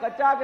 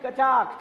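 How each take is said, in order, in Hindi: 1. यह शब्द कमज़ोर और धीमी आवाज़ में बोला गया है। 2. यह शब्द ज़ोर से, छाती से बोला गया है। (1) "वो कचाक नहीं" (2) "फेफड़े से आवाज आनी चाहिए"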